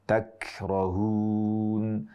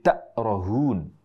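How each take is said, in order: First: The middle consonant is a clear k sound. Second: The middle consonant is a glottal stop. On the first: The speaker calls it right. "Harusnya takrohun ... tidak berubah menjadi huruf hamzah" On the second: The speaker calls it wrong. "menjadi takrohun. Ini kesalahan yang sangat fatal"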